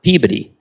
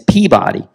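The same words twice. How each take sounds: First: It is said the way Massachusetts people say it. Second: It is said the way Baltimore people say it. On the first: This is how the Massachusetts town's name is said. The speaker calls it wrong. "not Peabody" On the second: This is how the Baltimore school's name is said. The speaker calls it right. "that's in Baltimore, and it's Peabody"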